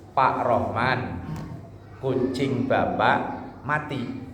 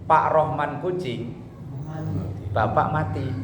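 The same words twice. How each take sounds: First: The pause comes right after Rohman. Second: The pause comes right after kucing. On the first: The listener is told that his cat died. "kita ngasih tahu ke Pak Ustadz Rohman" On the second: The listener is told that his father died. "coba kalau komanya tadi dipindah"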